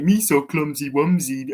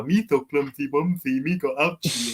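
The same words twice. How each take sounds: First: Put-on lisping baby-talk creature voice, a bit louder; mock the goofy childish alien; silly babyish Jar Jar impression. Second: Lisping goofy baby talk, lightly voiced; a hint of the clumsy alien whining; mock childish lisp; Jar Jar baby talk. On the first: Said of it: "He talks like a baby". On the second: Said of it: "but then you have Jar Jar".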